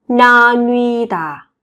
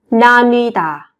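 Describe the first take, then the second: First: Slow, lengthened 나뉘다; slow model. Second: Said in the usual way. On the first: Shown as a demonstration. Teacher to Korean learners, slow model. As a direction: hold the vowels of 나뉘다 long.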